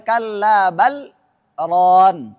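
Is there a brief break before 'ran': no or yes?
yes. There is a short break before the last word. The speaker calls it wrong. "Tidak boleh"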